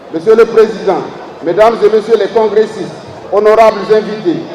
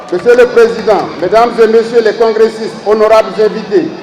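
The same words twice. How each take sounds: Both takes have the same delivery.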